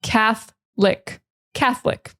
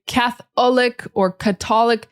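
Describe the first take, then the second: First: "Catholic" said as cath-lick. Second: "Catholic" said as cath-ollic, then ca-tollic; students' mispronunciations. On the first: Teacher showing the correct Catholic, two syllables. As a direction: drop the O from "Catholic", strong th. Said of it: "Forget about the O". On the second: Teacher imitating students' wrong versions, sounded O. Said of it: "A lot of students wanna say". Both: Shown as a demonstration.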